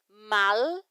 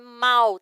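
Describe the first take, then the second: First: The final L is clearly and fully pronounced. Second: The final L is softened, not clearly pronounced. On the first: The speaker calls it right. "o L tem que ser bem pronunciado" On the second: The speaker calls it wrong. "não é mal"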